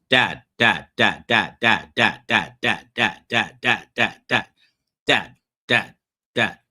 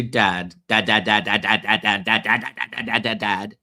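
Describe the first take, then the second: First: Mock kids chanting dad, louder; nagging kids. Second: Mock kids repeating dad, louder; nagging kids again. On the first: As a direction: imitate children calling nonstop for attention. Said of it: "I hear this". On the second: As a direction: hammer the word like impatient children. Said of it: "when I said to my kids".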